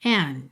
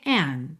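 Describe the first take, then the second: Both takes have the same delivery.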